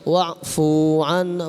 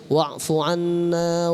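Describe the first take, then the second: First: The vowel in fu is drawn out long. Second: The vowel in fu is kept short. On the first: It addresses several beings, a plural. The speaker calls it wrong. "Jangan wa'fu anna, fu-nya jadi panjang" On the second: It addresses a single being. The speaker calls it right. "Ya bacanya wa'fu anna waghfir lana warhamna"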